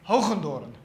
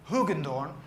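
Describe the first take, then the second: First: The name is said the Dutch way. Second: The name is said the English way.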